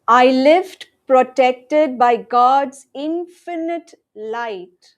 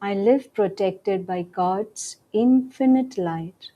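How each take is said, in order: First: It is said in a loud voice. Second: It is said in a soft voice. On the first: "Let's affirm together loudly first" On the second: "In a softer voice now"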